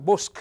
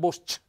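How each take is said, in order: First: The final consonant is a hard c sound. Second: The final consonant is a soft c sound. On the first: The speaker calls it right. "per far sentire che la C è dura" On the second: The speaker calls it wrong.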